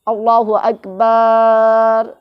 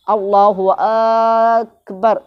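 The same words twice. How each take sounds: First: اللہ اکبر with the last syllable بر dragged out; mock faulty takbir ending; stretched bar. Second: اللہ اکبر slow with a short final بر; proper slow اللہ اکبر; correct takbir. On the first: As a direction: imitate someone drawing out the final بر. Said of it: "last میں بر، یہ کھینچ رہا تھوڑا". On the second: Shown as a demonstration. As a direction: model takbir. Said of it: "یہ بھی ٹھیک ہے".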